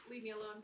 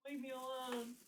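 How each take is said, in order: First: Said in the usual way. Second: Drawn-out mock complaint, held on one note; joking whine to a teasing coworker; playful plea. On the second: Playful plea to coworker, then explained.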